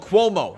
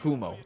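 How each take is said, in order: First: The name begins with a 'kwo' sound. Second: The name begins with a 'koo' sound. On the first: The speaker calls it right. "Like status quo, then add mo" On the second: The speaker calls it wrong. "not Kumo"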